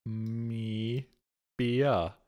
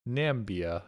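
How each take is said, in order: First: Na-mi-bia split into slow syllables; sounding out Na-mi-bia. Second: "Nambia" said with two syllables before the b, no I; the Nambia misreading. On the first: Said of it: "It really has an I after the M". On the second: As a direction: say "Nambia" quickly, dropping the I. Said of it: "No, it doesn't". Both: Shown as a demonstration.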